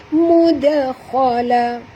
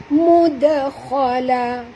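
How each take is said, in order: The two takes are said the same way.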